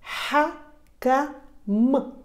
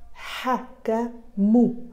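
First: The word ends on a bare m sound. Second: The word ends with an added u vowel. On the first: The speaker calls it right. "М в конце слова" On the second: The speaker calls it wrong. "Но му читаться не будет, будет читаться как М"

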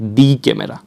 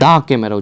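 First: The word 'the' is said as 'thee'. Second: The word 'the' is said as 'thuh'. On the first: The speaker calls it wrong. "Not দি camera" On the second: The speaker calls it right. "আপনারা যখন উচ্চারণ করবেন দা camera উচ্চারণ করবেন"

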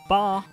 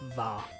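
First: The syllable begins with a B sound. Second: The syllable begins with a V sound. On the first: "Usually, as one would expect, it's pronounced Ba" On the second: "sometimes due to the lack of katakana to transcribe English words starting with a V sound, it's pronounced Va"

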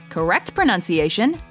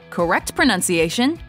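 Both takes have the same delivery.

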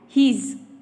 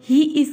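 First: The two words are contracted into one. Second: Both words are said in full.

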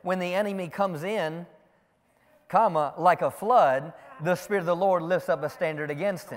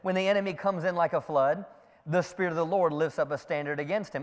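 First: It breaks after 'comes in', before 'like a flood'. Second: It runs straight on from 'comes in' to 'like a flood'.

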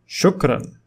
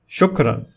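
The two takes are said the same way.

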